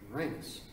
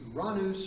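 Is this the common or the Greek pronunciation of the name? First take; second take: common; Greek. First: The name is said the common English way. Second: The name is said the Greek way.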